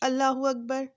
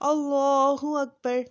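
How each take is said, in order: First: The 'l' in Allah is thin and light. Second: The 'l' in Allah is thick and heavy. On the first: It does not befit the phrase. The speaker calls it wrong. "अगर हम इसको बारीक पढ़ें" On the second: It shows the greatness of God. The speaker calls it right. "इसको अल्लाह को मोटा पढ़ा पढ़ा है, पुर पढ़ा है"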